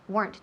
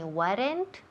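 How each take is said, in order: First: The word is said as one syllable. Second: The word is said as two syllables. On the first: The speaker calls it right. "Remember, one syllable" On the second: The speaker calls it wrong. "Nunca decimos weren't ni weren't. No son dos sílabas"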